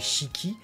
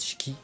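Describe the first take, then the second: First: Both syllables are separate, with a full first vowel. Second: The first vowel is rushed and barely heard. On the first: "les deux syllabes détachées" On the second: "aller vite sur le i, sur le premier, sur le shi"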